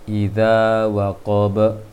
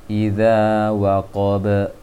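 The two takes are said the same way.

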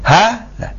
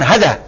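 First: The first vowel is held long. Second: The first vowel is kept short. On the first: The speaker calls it right. "Ini dibaca panjang" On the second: The speaker calls it wrong. "bukan hadza"

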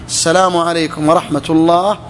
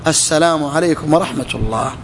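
The two takes are said the same way.

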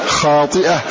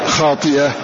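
Both takes have the same delivery.

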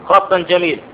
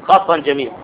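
The two takes are said the same way.

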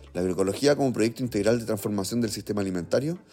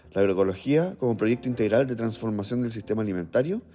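The two takes are said the same way.

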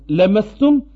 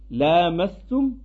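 First: The first 'a' vowel is short. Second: The first 'a' vowel is long. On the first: It means simply touching. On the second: It means sexual intercourse.

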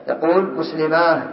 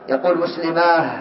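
No difference in how they are said.

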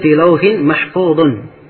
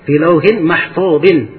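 First: The last word ends with an 'un' sound. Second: The last word ends with an 'in' sound. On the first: The Quran is what is preserved. "Dibaca dengan dhamma" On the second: The tablet is what is preserved. "Ini dibacaan kebanyakan qurra dibaca mahfuzin"

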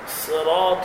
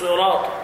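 First: The first consonant is lightly emphatic. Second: The first consonant is heavily emphatic. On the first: The speaker calls it right. "تنطق هكذا صين صراط" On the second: The speaker calls it wrong. "لا تقول صراط لا تبالغ في تفخيم الصاد أكثر من اللازم"

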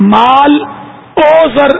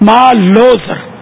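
First: The 'o' is said as a separate word. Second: The 'o' is joined onto the first word. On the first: The speaker calls it wrong. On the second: The speaker calls it right.

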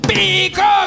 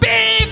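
First: The word is shouted loudly. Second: The word is bellowed as loud as possible. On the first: "Gritó el viejo con todas sus fuerzas" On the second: "Barritó a punto de desvanecerse el viejo"

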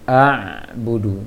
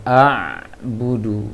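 Both takes have the same delivery.

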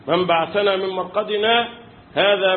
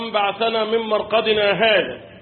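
First: A brief breathless pause comes before the last word. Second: The words run on with no break before the last word. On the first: The last word starts the next statement. The speaker calls it right. "السكتة الثانية هذه" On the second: The last word belongs to the words before it. The speaker calls it wrong. "يجي واحد انا اسف في اللفظ ما بيفهمش"

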